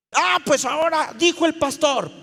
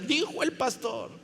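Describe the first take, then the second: First: Loud, high mock scolding; indignant retort. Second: A toned-down mock of someone citing authority; mocking echo. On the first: Server snapping back at a stubborn congregant, indignant. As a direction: throw the pastor's authority at them, loudly. Acted retort invoking the pastor. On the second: Preacher mimicking those who blame him, mocking.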